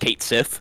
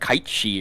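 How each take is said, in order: First: The name sounds like 'Kate Sith', ending in 'sith'. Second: The name sounds like 'Kite Shee', ending in 'shee'. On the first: It is read letter by letter. The speaker calls it wrong. "you pronounced it basically phonetically" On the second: It is said the way the original language says it. The speaker calls it right. "I think it's like Kite She or something like that"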